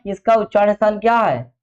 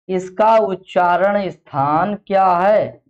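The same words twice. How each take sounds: First: Said in the usual way. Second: Slow, deliberate classroom prompting; slow, drawn-out question. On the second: Real, not acted. Teacher prompting the class on the place of articulation, slow and drawn-out. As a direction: stretch out उच्चारण and स्थान, word by word.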